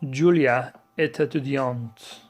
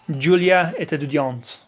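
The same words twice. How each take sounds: First: The phrase is said at a slower pace. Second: The phrase is said at a faster pace.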